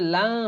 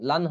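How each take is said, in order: First: The n is hidden in a nasal hum. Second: The n is pronounced clearly and fully. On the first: The speaker calls it right. "তাহলে লাং হবে" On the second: The speaker calls it wrong. "লান লান হবে না"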